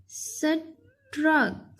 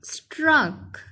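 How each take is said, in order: First: struck as "स", pause, "truck"; split into parts. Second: Said in the usual way. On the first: Shown as a demonstration. Teacher helping pupils spell, struck split in two. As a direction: say struck very slowly, first sound apart. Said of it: "इसके अलग-अलग". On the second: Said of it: "जब इकट्ठा पढ़ेंगे".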